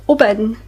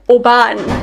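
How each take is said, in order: First: The last syllable has an 'in' vowel. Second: The last syllable has an 'an' vowel. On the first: The speaker calls it right. "as if you're you're saying it with an I N instead of an A N" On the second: The speaker calls it wrong. "So you wouldn't say it Oban"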